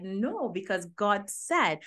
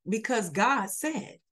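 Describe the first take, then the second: First: Quoting her. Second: Quoting back. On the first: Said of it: "But you said". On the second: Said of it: "you just said it". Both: Retold or imitated.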